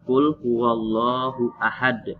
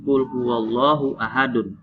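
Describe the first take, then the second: First: The last word stops on a bouncing d sound. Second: The last word ends with an added vowel sound. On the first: The speaker calls it right. "tapi apa?" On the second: The speaker calls it wrong. "maka dibaca bukan"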